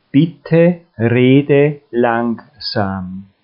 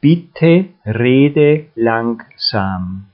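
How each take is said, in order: Both takes have the same delivery.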